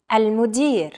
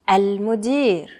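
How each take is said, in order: First: Said in the usual way. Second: Al-Mudir slowly, with a drawn-out ending; slower repeat. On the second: Shown as a demonstration. Teacher asking learners to repeat after them, slower repeat. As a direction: say Al-Mudir at a slow learner's pace.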